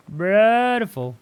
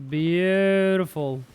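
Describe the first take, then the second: First: Very slow, high and loud exclamation; loud, soaring, pleased drawl; bigger drawn-out delight. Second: Very slow, higher-pitched exclamation; long, lifted, pleased drawl; drawn-out delight. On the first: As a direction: stretch it out and push it way up. Repeats it bigger. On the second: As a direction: stretch the word right out with satisfaction. Savours good news in game. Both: Real, not acted.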